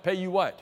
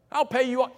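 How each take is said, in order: First: Said in the usual way. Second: Incredulous repeat. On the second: Retold or imitated. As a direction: scoff at the promise as if it's absurd. Preacher mocks the servant's promise.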